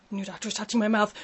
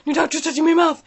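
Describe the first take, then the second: First: Said in the usual way. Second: Higher, louder panicky repeat; freaked out. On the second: Retold or imitated. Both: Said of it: "I'm like".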